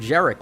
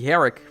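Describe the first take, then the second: First: The name begins with a J sound. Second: The name begins with an H sound. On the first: "as if the G in his name was pronounced with a hard J" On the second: "Or it could be a silent G. ... kind of Spanish"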